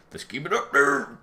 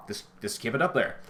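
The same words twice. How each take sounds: First: Louder and slower, pressing the point; slow and insistent, leaning in; emphatic. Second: Said in the usual way. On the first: Shown as a demonstration. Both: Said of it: "repeated more emphatically".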